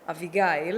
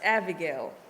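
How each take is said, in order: First: The name is said with its Hebrew pronunciation. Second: The name is said with its English pronunciation. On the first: This is the name as given at birth. "That's how you pronounce it in Hebrew" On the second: This is how people in America say it. "I live here in America, and my name is being pronounced Abigail"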